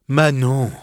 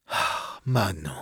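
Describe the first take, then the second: First: Said in the usual way. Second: Soft sighing "Ah, Manon", much softer. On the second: Acted. The wounded lover sighs Manon's name to her. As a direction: breathe out "Manon" on a sigh. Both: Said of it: "repris-je avec un soupir".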